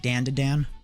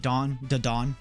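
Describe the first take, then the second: First: The vowels sound like the word dan. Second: The vowels sound like the word dawn. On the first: This is how some other people say the name. "some people say Dan to Dan" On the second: This is how the speaker says the name. "I just say Dawn to Dawn"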